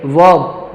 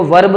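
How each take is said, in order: First: वर्ब without the R, "vawb"; correct pronunciation. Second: वर्ब with R pronounced, "varb"; wrong pronunciation. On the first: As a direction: glide over the R in वर्ब. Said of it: "रे नहीं पढ़ेंगे". (वर्ब बिना र के) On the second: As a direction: show the mistaken R in वर्ब. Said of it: "तो इसको वर्ब नहीं". (वर्ब में र बोलकर) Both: Shown as a demonstration.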